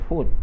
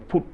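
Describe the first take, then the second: First: The word begins with an F sound. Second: The word begins with a P sound. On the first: The speaker calls it right. "They don't say food" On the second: The speaker calls it wrong. "They use they change F with P"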